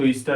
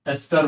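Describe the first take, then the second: First: The first vowel is a long 'ee' sound. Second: The first vowel is a short 'e' sound. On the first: The speaker calls it wrong. "ईस्टर नहीं बोलना" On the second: The speaker calls it right. "एस्टर बोलते हैं इसको"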